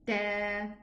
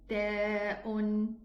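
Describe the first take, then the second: First: It ends on an open vowel, no glottal stop. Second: It ends with a glottal stop and vowel. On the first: "omitting the hamza" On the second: "There's a hamza in all these letters"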